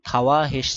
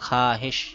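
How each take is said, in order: First: A 'w' sound follows the 'kh'. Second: No 'w' sound follows the 'kh'. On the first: The speaker calls it wrong. "খাওয়া হেস ছিল" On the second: The speaker calls it right. "ওয়াও silent এর জন্য খাহেশ"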